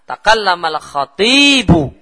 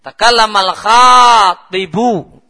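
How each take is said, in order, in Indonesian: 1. Vokal setelah t itu panjang. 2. Vokal setelah kh itu panjang. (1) "orator itu yang panjang toknya" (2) "Itu kalau khoknya panjang"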